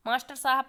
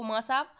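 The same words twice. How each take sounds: First: Said in the usual way. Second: माँ साहब squeezed to "maa-saab"; shortened form. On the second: Shown as a demonstration. Teacher showing lazy shortening, माँ साहब as "maa-saab". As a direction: drop "star" and the h: माँ साहब. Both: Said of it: "छोटा कर देना".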